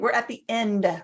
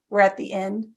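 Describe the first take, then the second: First: The last word is finished with overemphasis. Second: The last word trails off softly.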